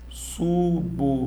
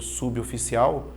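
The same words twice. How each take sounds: First: "Suboficial" slowly as su-bo-fi-ci-al; syllable by syllable. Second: Said in the usual way. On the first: Shown as a demonstration. Teacher separating the word on the board, syllable by syllable. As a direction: leave a clear gap after each syllable of "Suboficial". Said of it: "vou separar". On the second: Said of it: "a gente cresce falando suboficial".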